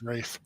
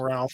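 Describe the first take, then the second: First: The name rhymes with safe and has no L. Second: The name has a short vowel and an L sound. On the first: "sometimes it's pronounced Rafe" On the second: "There's some Ralph"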